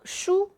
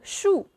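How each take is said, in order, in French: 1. La syllabe est dite sur un ton haut et plat. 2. La syllabe est dite avec un ton qui descend brusquement. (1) "est le premier don" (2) "est le quatrième don"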